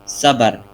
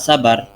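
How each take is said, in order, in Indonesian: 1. Diawali bunyi s yang biasa, tidak emfatis. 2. Diawali bunyi s yang emfatis, agak tebal. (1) "orang Indonesia cenderung menggunakan kata sabar, yakni menggunakan kata s" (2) "orang-orang sana menggunakan huruf short"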